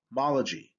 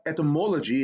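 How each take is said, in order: First: "mology" with an open AH, MAH-luh-jee; correct vowel demo. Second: "etymology" with a long O, et-uh-MOH-luh-jee; wrong vowel demo. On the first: Teacher corrects the end of etymology, open AH vowel. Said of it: "it's ah". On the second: Teacher shows how not to say etymology, long O. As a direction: say the stressed syllable of "etymology" as "moh". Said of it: "It's not etymology". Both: Shown as a demonstration.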